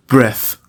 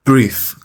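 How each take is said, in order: First: "breath" with a short e, as in "bed"; noun pronunciation. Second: "breathe" with a long ee vowel; verb pronunciation. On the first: Teacher showing students the noun, "breath" with short e. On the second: Teacher showing students the verb, "breathe" with long ee. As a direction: say "breathe" with a long ee, rhyming with "seethe". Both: Shown as a demonstration.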